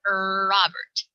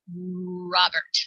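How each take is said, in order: First: An extra 'er' vowel comes before the R. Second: The R starts the word with no vowel before. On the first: The speaker calls it wrong. "Someone's name is not er Robert" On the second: The speaker calls it right. "It's Robert"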